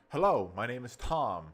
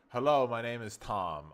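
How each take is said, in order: First: It is said lively, with lots of pitch movement. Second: It is said flat, with little pitch movement. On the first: The speaker calls it right. "See that? Exciting. You're excited" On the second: The speaker calls it wrong. "it's still monotone. So like you say"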